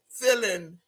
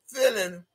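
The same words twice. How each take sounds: The two takes are said the same way.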